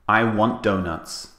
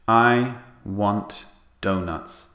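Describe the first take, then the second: First: The T at the end of 'want' is dropped. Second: The T at the end of 'want' is pronounced. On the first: The speaker calls it right. "We delete the T sound. So we say" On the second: The speaker calls it wrong. "we don't say in English"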